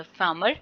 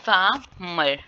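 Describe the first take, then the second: First: Said in the usual way. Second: "farmer" split in two with a gap; syllable by syllable. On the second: Shown as a demonstration. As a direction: break "farmer" after the first syllable. ("farmer" को दो syllable में तोड़कर) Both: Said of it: "second syllable इसमें क्या है".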